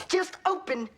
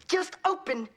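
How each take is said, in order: No difference in how they are said.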